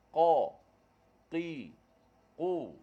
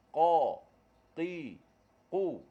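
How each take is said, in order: Both takes have the same delivery.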